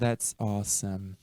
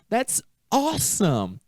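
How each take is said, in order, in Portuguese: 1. É dito de forma monótona, sem entusiasmo. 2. É dito com animação vibrante. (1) "Não é essa a ideia" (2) "você tem que estar animado para falar isso"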